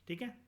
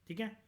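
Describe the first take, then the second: Both takes have the same delivery.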